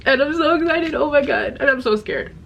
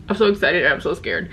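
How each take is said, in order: First: Pitched high, gushing over the book; a giddy mix of thrill and nerves; excited gush. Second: Said in the usual way. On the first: Real, not acted. Vlogger gushes to viewers about the new book, giddy and high.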